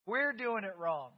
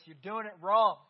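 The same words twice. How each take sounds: First: We're lifted, rest said plainly; stress on we're. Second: Wrong punched loud at the end; stress on wrong. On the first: Preacher including himself, stressing we're. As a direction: turn it on yourselves by stressing we're. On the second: Preacher to congregation, leaning hard on wrong. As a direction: land hard on wrong in you're doing it wrong. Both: Shown as a demonstration.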